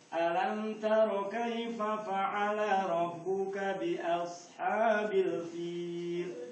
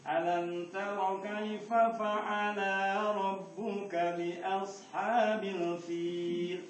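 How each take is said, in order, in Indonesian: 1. Vokal dalam fa'ala dibaca pendek. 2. Vokal dalam fa'ala dibaca panjang.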